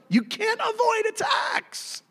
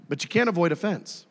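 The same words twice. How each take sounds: First: High, drawn-out warning; emphatic high cry. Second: Said in the usual way. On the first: Real, not acted. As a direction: cry it out slowly, far above normal pitch. Preacher's emphatic warning, against next line.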